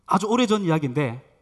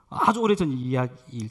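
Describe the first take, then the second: First: Said in the usual way. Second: Slow down to savour 오래전; slowed repeat. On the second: Shown as a demonstration. Pastor repeating the opening of his story slowly.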